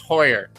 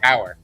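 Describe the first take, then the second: First: The vowel sounds like 'oy' in boy. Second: The vowel sounds like 'ow' in cow. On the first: This is the original German way. The speaker calls it right. "Hoyer in proper German pronunciation" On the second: This is how Americans say it. The speaker calls it wrong. "I believe Americans say Hauer"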